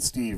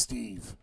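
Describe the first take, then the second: First: The vowel in the name is short. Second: The vowel in the name is drawn out. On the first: The speaker calls it wrong. "you pronounced it wrong. You just said Steve" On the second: The speaker calls it right. "It's Steve with three E's"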